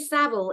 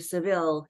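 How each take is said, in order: First: The name has the speaker's own British pronunciation. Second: The name has an American pronunciation, like Seville.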